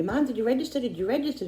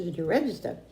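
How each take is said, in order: First: Son's pestering question, pitched higher; nagging son. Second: Said in the usual way. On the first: Retold or imitated. Son nagging his mom to sign up, pitched-up mock pester. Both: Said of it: "my son kept saying to me".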